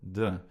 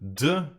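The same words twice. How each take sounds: First: The consonant is short, quick and soft. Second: The consonant is pushed out hard and heavily. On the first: The speaker calls it right. "as quick and soft as you can" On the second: The speaker calls it wrong. "we don't pronounce"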